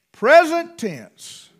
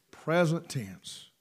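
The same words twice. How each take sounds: First: "Present tense" called out higher and louder, slow; preached out loud. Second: "Present tense" repeated softer and lower, slow; quiet echo. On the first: Preacher proclaiming to the church, slow loud emphasis. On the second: Preacher repeating the phrase to the congregation, slow and soft. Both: Shown as a demonstration.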